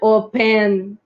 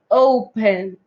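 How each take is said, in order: First: The stress is on the second syllable. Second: The stress is on the first syllable. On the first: The speaker calls it wrong. "Não é open" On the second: The speaker calls it right. "O, sílaba tônica. N, sílaba átona"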